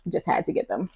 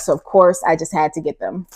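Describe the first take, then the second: First: Soft murmured repeat; quiet echo. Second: Said in the usual way. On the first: Real, not acted. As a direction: drop to a soft aside. Quiet echo of previous line.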